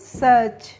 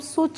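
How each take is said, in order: First: The vowel is an open 'uh' sound. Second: The vowel is a rounded 'oo' sound. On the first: The speaker calls it right. "इसको क्या पढ़ेंगे हम सच" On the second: The speaker calls it wrong. "इसको हम सुच नहीं पढ़ेंगे"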